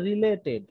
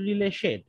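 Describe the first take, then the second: First: The middle consonant is a clear 't' sound. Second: The middle consonant is a 'sh' sound. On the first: The speaker calls it right. "এখানে দেওয়া আছে রিলেটেড" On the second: The speaker calls it wrong. "আপনি এটা উচ্চারণ করলেন রিলেশেড, তখন এটা ভুল হচ্ছে"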